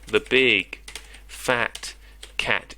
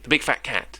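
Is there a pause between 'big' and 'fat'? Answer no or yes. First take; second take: yes; no. First: There is a short pause between big and fat. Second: The words run together without any pause. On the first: The speaker calls it right. "You separate the words big and fat with a comma" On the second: The speaker calls it wrong. "It's too much in one go"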